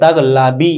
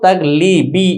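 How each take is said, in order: First: The second syllable has an a vowel. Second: The second syllable has an i vowel. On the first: The form used to avoid two kasras in a row. "লামের জেরটাকে জবর দিয়ে" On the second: The regular form expected by analogy. "লামে জের দিয়ে, নিসবত তাগ লিবি এরকম হওয়া উচিত ছিল"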